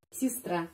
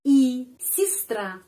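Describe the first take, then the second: First: Said in the usual way. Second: Sistra said slowly and louder, first vowel as i, stress on the final a; slow careful sistra. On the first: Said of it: "sistra penekanannya pada huruf A". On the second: Shown as a demonstration. Teacher modelling sistra slowly for the class. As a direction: stretch out sistra with an i sound. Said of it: "sistra penekanannya pada huruf A yang terakhir".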